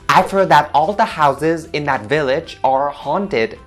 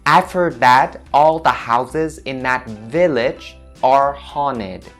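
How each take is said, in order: First: It is spoken at a normal, natural speed. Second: It is spoken noticeably slower than normal.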